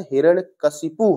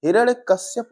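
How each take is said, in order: First: हिरण्यकशिपु ending in ka-shi-pu, said slowly; correct spelling, slowly. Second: हिरण्यकश्यप ending in kash-yap; wrong spelling read out. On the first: Teacher slowly giving students the correct form. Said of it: "होता है". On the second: Teacher reading the common wrong form to students. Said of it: "नहीं होता है". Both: Shown as a demonstration.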